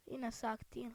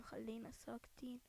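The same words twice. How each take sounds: First: Said in the usual way. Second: Soft unvoiced whisper of ساكتين. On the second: Real, not acted. Telling teammates to stay quiet while sneaking, whispered. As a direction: drop to a breath.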